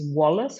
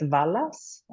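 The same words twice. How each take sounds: First: The name begins with a w sound. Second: The name begins with a v sound. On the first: The speaker calls it right. "with a W" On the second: The speaker calls it wrong. "he gets Wallace a lot"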